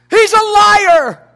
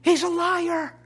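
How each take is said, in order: First: He's a liar, each word slow and loud; slow, loud declaration. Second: Said in the usual way. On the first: Shown as a demonstration. Pastor rebuking the devil, slow and loud. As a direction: drag out He's a liar, punching it. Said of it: "preaching rebuttal". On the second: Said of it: "Who is the enemy?".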